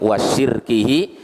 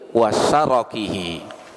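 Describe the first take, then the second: First: The r has no vowel after it. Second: The r is followed by an a vowel. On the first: It names associating partners with God. "dengan mensukun ra" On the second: It names the traps of the devil. "Kalau syarakun ra-nya di fathah"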